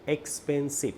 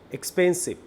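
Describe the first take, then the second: First: Syllable by syllable. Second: Said in the usual way. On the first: Shown as a demonstration. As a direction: say expensive in three beats, ex, pen, sive. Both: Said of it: "তিনটা syllable".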